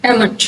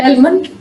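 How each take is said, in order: First: एमंड said without the L; एमंड, L silent. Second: एलमंड with the L sounded; एलमंड, L pronounced. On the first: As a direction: drop the L, एमंड. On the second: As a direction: say एलमंड with a clear L. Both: Shown as a demonstration. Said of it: "दोनों तरह से ठीक है".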